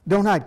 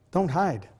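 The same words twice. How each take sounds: First: Said in the usual way. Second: Softer, gentle don't hide; quiet pastoral urging, don't hide; soft plea. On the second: Real, not acted. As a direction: say don't hide almost under the breath.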